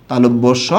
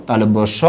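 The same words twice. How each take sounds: The two takes are said the same way.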